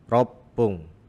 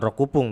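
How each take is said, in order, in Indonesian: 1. Bagian tengahnya ada bunyi p yang digandakan dan ditahan. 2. Bagian tengahnya ada suku kata 'ku' yang utuh. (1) "tapi ropung" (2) "bukan rokupung"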